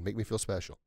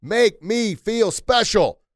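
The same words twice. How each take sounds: First: Softer, at his own pitch, unhurried; quiet. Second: Much louder and higher, drawn out slowly. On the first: Speaker closing the message to listeners, softly. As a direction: let the words drop to a near hush. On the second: Preacher urging listeners to shout the sign, loud and slow. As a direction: belt the line out like a rally chant. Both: Shown as a demonstration. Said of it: "Say it loud, say it proud".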